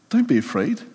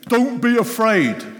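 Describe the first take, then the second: First: It is said gently and lovingly. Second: It is said as a harsh command.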